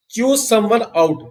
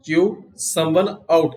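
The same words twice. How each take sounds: First: "chew someone out" said higher and slow, as a headline; announcing the phrase. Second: Said in the usual way. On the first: Shown as a demonstration. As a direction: lift the voice to present the new phrase. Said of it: "teacher introduces the new phrase". (ऊँची आवाज़ में धीरे से पेश कीजिए) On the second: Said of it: "teacher repeats the phrase".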